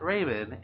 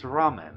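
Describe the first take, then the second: First: It is pronounced like the name Raymond. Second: It is pronounced as ramen, the noodle dish. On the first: The speaker calls it wrong. "It is not Raymond" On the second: The speaker calls it right. "it is ramen"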